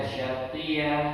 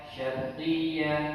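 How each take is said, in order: The two takes are said the same way.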